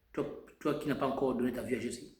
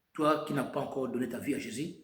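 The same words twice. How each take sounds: The two takes are said the same way.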